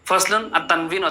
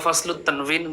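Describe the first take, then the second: First: Fasl ends in -un before the next word. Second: Fasl ends in -ut, linked into the next word. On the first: "ফাসলুন পড়লে সুন্দর হয়" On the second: "দুইভাবে পড়া যায়"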